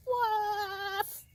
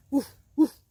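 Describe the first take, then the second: First: High, long-drawn bird's attempt at a woof; shrieked woof. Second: Two short, loud barks; dog's woof. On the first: Little bird trying to find a friend, high shrieked woof. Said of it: "and shrieked". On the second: Acted. Dog answering the little bird, short loud woofs. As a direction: bark back sharply, twice. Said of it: "answered the dog".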